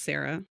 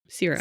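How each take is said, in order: First: The name sounds like Sarah. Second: The name sounds like Sierra. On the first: This is how the audiobook says it. "in the audio, her name is pronounced Sarah" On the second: This is how the pronunciation guide says it. "if you look at this pronunciation guide"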